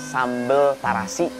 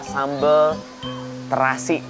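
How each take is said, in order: First: The first vowel of terasi sounds like 'a'. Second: The first vowel of terasi sounds like 'e'. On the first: This is how Sundanese people say it. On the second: This is the standard Indonesian form.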